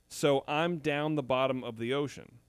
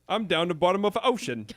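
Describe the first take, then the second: First: It is said in his own plain accent. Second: It is said in a put-on British accent.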